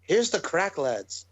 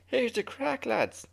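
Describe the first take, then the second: First: Weak attempt at an Irish accent; half-successful Irish impression; poor Irish accent. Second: High-pitched Irish impression; Irish lad, pitched way up; Irish accent. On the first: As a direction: try an Irish lilt, not quite managing it. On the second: Shown as a demonstration. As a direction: do a confident, exaggerated Irish brogue. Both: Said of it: "I can't do the Irish accent like you".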